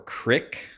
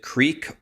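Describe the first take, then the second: First: The vowel is short, as in 'sick'. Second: The vowel is long, as in 'seek'. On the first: The speaker calls it wrong. "Is it creek or crick?" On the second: The speaker calls it right. "It's creek"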